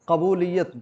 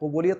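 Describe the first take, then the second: First: The first syllable has an 'a' vowel. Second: The first syllable has a vowel other than 'a'. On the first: The speaker calls it right. "बिफ़तहिल क़ाफ़" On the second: The speaker calls it wrong. "कबूलियत नहीं"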